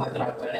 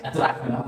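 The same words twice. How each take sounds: First: Whispered coaxing, no voice at all. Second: Soft coaxing. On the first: Mother whispering to her sulking child to calm him. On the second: Mother soothing her sulking child, soft and hushed. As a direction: coax softly, barely above a murmur. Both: Real, not acted.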